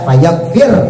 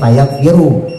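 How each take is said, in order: First: The word ends on a consonant with no vowel. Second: The word ends with a short u vowel. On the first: The verb is joined to the answer of the condition. "bisa dibaca jazm" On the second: The verb starts a new clause with an implied subject. "pakai domah"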